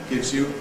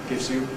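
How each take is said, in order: The two takes are said the same way.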